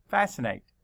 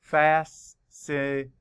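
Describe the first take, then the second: First: Said in the usual way. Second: Slow, each syllable counted out. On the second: Shown as a demonstration. Teacher counting syllables slowly for the class. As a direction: tap out every syllable slowly. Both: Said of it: "Count the syllables".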